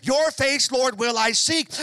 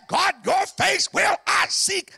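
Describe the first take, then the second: First: Sung psalm line. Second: Loud, high, slow cry to God; David's answer roared out slowly; shouted psalm line. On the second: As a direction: cry it out with everything. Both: Acted.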